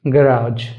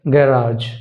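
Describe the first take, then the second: No difference in how they are said.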